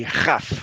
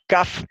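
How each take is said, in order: First: "Jaf" with a kh sound; throat fricative. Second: "Kaf" with a stopped k; hard k. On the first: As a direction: say "Jaf" slowly, starting with Spanish j. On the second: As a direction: say "Kaf" slowly with a clean k. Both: Shown as a demonstration. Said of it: "que tiene dos formas".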